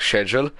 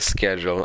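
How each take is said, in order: First: The word starts with a soft sh sound. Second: The word starts with a hard k sound. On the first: "like what I say" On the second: "there's that uh, car sound that you have to do"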